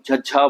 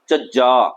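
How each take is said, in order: First: It is said plainly, Hindi style, without heaviness. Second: It is said heavily, with a weighted tone. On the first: "जैसा कि हिंदी में हम झज्झा बोलते" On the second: "इसे भी भर के बोलना"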